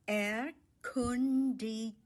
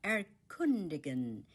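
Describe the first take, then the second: First: "Erkundigen" drawn out slowly, each syllable set apart. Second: Said in the usual way. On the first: Shown as a demonstration. Teacher breaking down the German word for explore, syllable by syllable. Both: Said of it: "The stress is on the second syllable".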